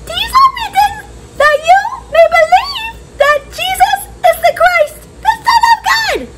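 It is said in a squeaky mouse voice.

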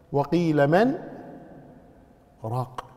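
There is a short pause after "man".

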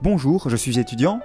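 The pitch rises at the end. The speaker sounds uncertain. The speaker calls it wrong. "plutôt qu'un ton ascendant"

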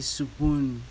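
The s is stressed with a vowel after it. "they stress on the S. they could say spoon"

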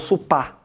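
The word ends with an open ah vowel. "eles falam supá"

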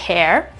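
The final r sound is pronounced. "in American English potete trovare hair"

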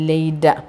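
The middle consonant is a d-like sound. "Australian ഇംഗ്ലീഷിൽ പറയുക ... ഡ് ആണ് ട് എന്ന് പറയുന്നില്ല"

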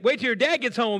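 It sounds happy and celebratory.

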